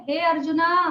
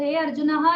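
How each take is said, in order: First: "हे arjuna" called out with the long final "ना"; summoning form "हे arjuna", stress on "arjuna"; vocative call. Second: "हे अर्जुनः" with the final visarga breathed out as "ह"; the incorrect "अर्जुनः" ending in "अः"; "अर्जुनः" ending in a breathy "ह" echo; wrong form. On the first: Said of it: "अगर संबोधन बोलना है". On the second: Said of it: "नहीं बोलेंगे". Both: Shown as a demonstration.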